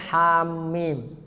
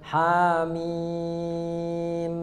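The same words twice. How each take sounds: First: The middle m is doubled and stressed. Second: The final m is held out long. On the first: "Jadi jangan sampai hamim" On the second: "jangan juga ujungnya ditahan, jangan hamim"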